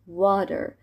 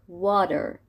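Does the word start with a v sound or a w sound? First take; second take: w sound; w sound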